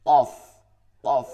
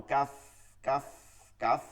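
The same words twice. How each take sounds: First: "কফ" said thick, from deep in the back of the mouth; full, back-of-throat "কফ"; thick heavy qof. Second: "কাফ" said thin, like a plain Bengali k; light, unrounded "কাফ"; thin light kaf. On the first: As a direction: punch out a heavy "কফ". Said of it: "আবার ভারী হবে". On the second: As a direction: keep "কাফ" light and forward. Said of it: "চিকন". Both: Shown as a demonstration.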